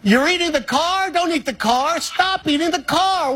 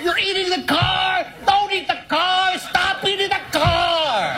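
First: It is said in the speaker's own voice. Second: It is said in an impression of Woody.

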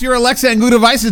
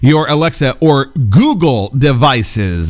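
First: It is said fast. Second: It is said slowly.

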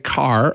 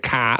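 First: It is said with a pronounced final R. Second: It is said with no final R.

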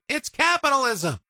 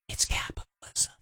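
First: It is said loudly. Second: It is whispered quietly.

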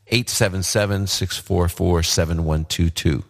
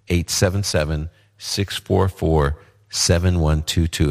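First: The number is said at a faster pace. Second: The number is said at a slower pace.

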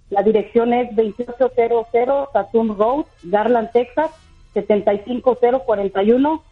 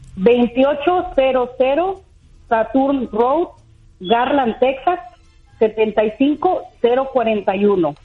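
First: The address is said at normal speed. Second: The address is said more slowly.

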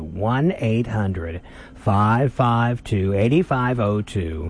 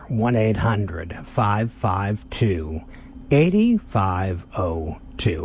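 First: The number is said at a normal, quick pace. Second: The number is said slowly and deliberately.

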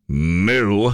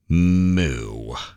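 First: It sounds sarcastic. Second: It sounds disappointed.

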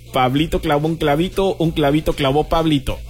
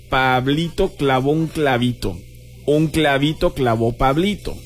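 First: It is said at a fast pace. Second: It is said at a slow, careful pace.

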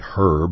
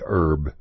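First: It is said the British way, h sounded. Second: It is said the Texan way, h dropped.

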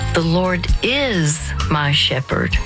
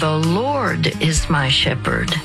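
First: The stress is on "is". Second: The stress is on "Lord".

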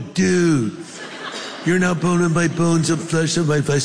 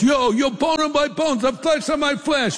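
First: It is said in a Californian accent. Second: It is said in an East Coast accent.

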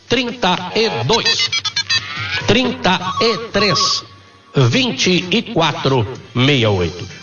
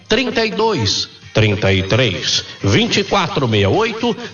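First: The number is said slowly. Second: The number is said at normal speed.

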